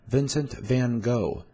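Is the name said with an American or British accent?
American. It is said with an American accent.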